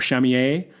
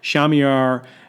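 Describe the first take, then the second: First: The name is said the French way. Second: The name is said the English way.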